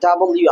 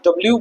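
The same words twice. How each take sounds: First: ডাবল ইউ in full, three syllables; correct pronunciation. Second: ডব্লিউ squeezed into "dobliu"; old habitual pronunciation. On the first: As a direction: say ডাবল ইউ as "double-you". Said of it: "এটা হবে ডাবল ইউ". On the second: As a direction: run ডব্লিউ together the Bangla way. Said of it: "আমরা ডব্লিউ বলতাম আগে". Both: Shown as a demonstration.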